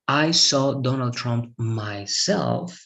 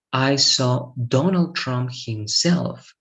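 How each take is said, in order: First: Slow example with "myself" drawn out; measured teacher's example leaning on "myself"; emphasis on myself. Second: Slow, with weight on "Donald Trump himself"; deliberate teacher's example stressing "Donald Trump himself"; emphasis on Donald Trump himself. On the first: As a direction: set "myself" apart, slowly and deliberately. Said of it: "I'm putting emphasis on the action". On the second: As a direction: stretch out "Donald Trump himself" to single out the person. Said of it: "I want to put emphasis on". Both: Shown as a demonstration.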